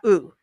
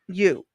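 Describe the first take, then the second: First: It starts directly with the vowel sound. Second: It starts with a y sound before the vowel. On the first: The speaker calls it wrong. "not U" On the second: The speaker calls it right.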